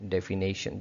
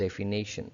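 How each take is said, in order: No difference in how they are said.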